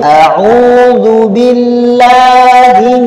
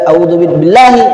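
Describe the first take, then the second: First: The long vowels are clearly held long. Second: The long vowels are cut short. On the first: The speaker calls it right. "Kalau mad panjang panjangkan" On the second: The speaker calls it wrong. "Hilang madnya"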